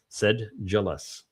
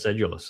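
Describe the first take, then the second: First: The d is followed by a 'j' sound. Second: The d is followed by a plain 'you' sound. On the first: "is the proper pronunciation" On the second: "that way I pronounced it"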